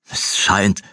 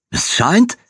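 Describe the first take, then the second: First: Bitter repeat. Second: High, sharply rising disbelief; incredulous question. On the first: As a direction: repeat "Es scheint" dryly. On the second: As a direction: throw "Es scheint?" back, pitched high. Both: Acted.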